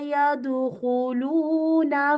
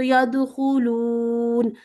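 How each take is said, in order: First: The word ends with a final vowel. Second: The word ends on a consonant. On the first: The reading continues without stopping. "रवानी से पढ़ें" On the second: The reader stops on this word. "यदखुलूना पे रुकना है तो यदखुलून"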